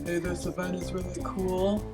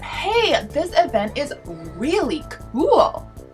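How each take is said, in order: First: It is said in a flat monotone. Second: It is said with lively, varied pitch. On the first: It would be cut from the video. The speaker calls it wrong. "that's probably going to be on the cutting room floor" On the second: It would make it into the video. The speaker calls it right. "speaking in a modulated way"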